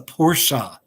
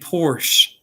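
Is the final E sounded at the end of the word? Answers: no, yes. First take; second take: yes; no. First: The word ends with a final vowel sound. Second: The word ends without a final vowel sound. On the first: The speaker calls it right. "you do pronounce the E" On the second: The speaker calls it wrong. "I used to say Porsche"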